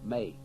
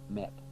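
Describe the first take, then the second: First: The syllable ends in a vowel with no t. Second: The syllable ends with a clear t sound. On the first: The speaker calls it right. "May, May, not Met" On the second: The speaker calls it wrong. "not Met"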